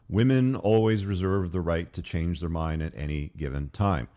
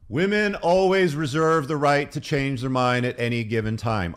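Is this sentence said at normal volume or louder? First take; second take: normal; louder. First: The sentence is said at normal volume. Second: The sentence is said more loudly.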